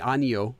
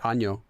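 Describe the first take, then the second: First: The word is said in full, three syllables. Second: The word is contracted to two syllables. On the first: The speaker calls it wrong. "They don't say 아니요 for no" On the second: The speaker calls it right. "They just say 아뇨"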